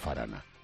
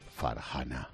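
First: The h in the middle is silent. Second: The middle h is a harsh, throaty sound. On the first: The speaker calls it wrong. "no Farana" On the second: The speaker calls it right. "Suena con J"

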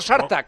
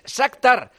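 First: The k sound comes after the t sound. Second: The k sound comes before the t sound. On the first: The speaker calls it wrong. "no Shartak" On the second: The speaker calls it right. "es al revés, es Shakhtar"

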